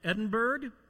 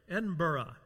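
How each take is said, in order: First: The name is said as it is spelled. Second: The name is said the local way. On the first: The speaker calls it wrong. "it looks like Edinburgh. Don't say that" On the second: The speaker calls it right. "I got to say this right"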